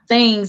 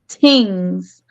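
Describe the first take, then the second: First: The word begins with a soft 'th' sound. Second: The word begins with a hard 't' sound. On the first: "it's not things" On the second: "you can also hear his his accent a little bit"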